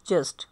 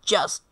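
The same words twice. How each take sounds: First: The opening j sound is soft and light. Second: The opening j sound is strong and forceful. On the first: This is how local speakers usually say it. The speaker calls it wrong. "हम कहते हैं जस्ट" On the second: This is how native English speakers say it. The speaker calls it right. "वो proper आवाज़ में जोर दे के बोलते हैं जस्ट"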